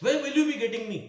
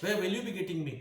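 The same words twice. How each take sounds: First: Called out loud and high, as if across a room; calling out to Ramesh. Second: Asked again through a light laugh at normal level; laughing question to Ramesh. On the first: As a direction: call the question to Ramesh from afar. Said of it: "इस तरह से कि Ramesh". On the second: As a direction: ask it again with a chuckle. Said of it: "देखो Ramesh". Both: Shown as a demonstration.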